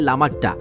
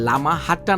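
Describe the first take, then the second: First: The name has no h sound in the middle. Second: The name has an h sound in the middle.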